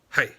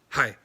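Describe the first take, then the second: Both takes have the same delivery.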